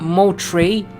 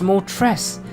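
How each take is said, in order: First: The final S is silent. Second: The final S is sounded. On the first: The speaker calls it wrong. "It's not mo tray" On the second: The speaker calls it right. "It's mo tres"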